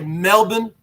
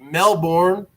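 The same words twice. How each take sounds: First: It is said the Australian way. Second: It is said the American way.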